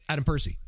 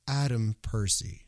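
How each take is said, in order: First: The name is said quickly and run together. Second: The name is said slowly and clearly enunciated. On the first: The speaker calls it wrong. "Don't say Adam Percy" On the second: The speaker calls it right. "And say it slowly"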